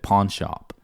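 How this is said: It is said with an American-style vowel. It is adapted for the listener. "I just changed it for your benefit"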